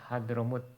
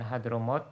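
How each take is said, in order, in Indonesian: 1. Vokal terakhir diucapkan sebagai u. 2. Vokal terakhir diucapkan sebagai o. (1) "tapi hadromut, ... mimnya didomahkan" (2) "bukan hadromot"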